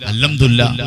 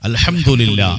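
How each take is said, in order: First: It is said quickly and hurriedly. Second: It is said slowly and clearly. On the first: The speaker calls it wrong. "ഇങ്ങനെ ... അങ്ങനെ പറഞ്ഞിട്ട് കാര്യമില്ല" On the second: The speaker calls it right. "വ്യക്തമായി പറയണം"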